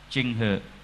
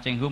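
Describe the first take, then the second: First: The second syllable ends in an E vowel. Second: The second syllable ends in an O vowel. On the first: The speaker calls it right. "dalam logat H K itu aslinya Cheng He" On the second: The speaker calls it wrong. "penyebutan Cheng Ho mungkin salah ya"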